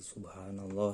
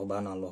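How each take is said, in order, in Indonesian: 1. Diucapkan pelan, setiap suku katanya jelas. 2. Diucapkan cepat, suku kata pertamanya dihilangkan. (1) "harus tartil, pelan-pelan aja" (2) "kalau dicepat-cepat mah banallah"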